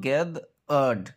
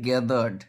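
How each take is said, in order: First: Gathered in two separate parts, gath... erd; syllable by syllable. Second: Said in the usual way. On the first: Shown as a demonstration. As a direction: split gathered with a gap in the middle. (gathered দুই ভাগে ভেঙে) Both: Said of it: "syllabic ডিভিশনের উচ্চারণ দেখো".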